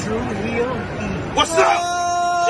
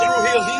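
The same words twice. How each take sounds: First: Chanted, slow, stretched shout of the show name, then higher; chanted, bellow it like a hype man; crowd-pumping chant. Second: Breathy whispered echo of the chant; stage-whispered tag line. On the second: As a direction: drop to a whisper for the last call. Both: Acted.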